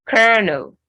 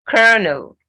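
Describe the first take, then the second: The two takes are said the same way.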